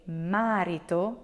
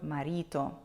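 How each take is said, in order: First: Marito with a long, stressed MA: MA-rito; stress on first syllable. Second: Marito with the middle syllable stressed: ma-RI-to. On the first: Retold or imitated. Teacher imitates English speakers' mistake, marito stressed on MA. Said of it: "the first syllable". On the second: Shown as a demonstration. Teacher corrects English speakers' mistake, marito stressed on RI. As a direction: lean on RI in marito, the Italian way. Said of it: "instead of marito".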